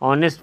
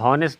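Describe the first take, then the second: First: The word begins directly with a vowel. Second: The word begins with an h sound. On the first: The speaker calls it right. "ऑनेस्ट पढ़ेंगे" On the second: The speaker calls it wrong. "इसको हॉनेस्ट नहीं पढ़ेंगे"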